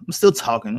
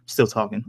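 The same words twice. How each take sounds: First: Firm "still", falling tune; stress on still. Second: Said in the usual way. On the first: Shown as a demonstration. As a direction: lean on "still" to insist.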